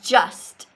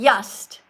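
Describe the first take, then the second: First: The word begins with a J sound. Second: The word begins with a Y sound. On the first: The speaker calls it right. "but the word is just" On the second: The speaker calls it wrong. "You're saying yust"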